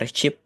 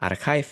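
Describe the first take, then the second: First: The 'ch' is said as a ch sound. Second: The 'ch' is said as a k sound. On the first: The speaker calls it wrong. "jangan teman-teman bilang archive gitu" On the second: The speaker calls it right. "ini tuh adalah archive ya"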